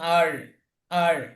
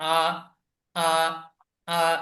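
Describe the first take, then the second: First: It ends with a slight r sound. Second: It ends on an open vowel without r. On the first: This is how American speakers say it. "অল্প একটু রয়ের উচ্চারণ করেন" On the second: This is how British speakers say it. "শুধু আ যদি বলে রেখে দেন"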